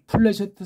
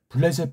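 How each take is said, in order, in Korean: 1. 이 이름은 무성음 p 소리로 시작해요. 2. 이 이름은 유성음 b 소리로 시작해요. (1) "이거 플래셰트라고 하세요. 발음을" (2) "이것도 블레셋 블레셋인데"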